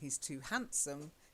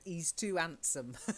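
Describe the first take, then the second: First: The H sounds are clearly pronounced. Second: The H sounds are left out. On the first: "instead of saying" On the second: "came from an area where they drop the H"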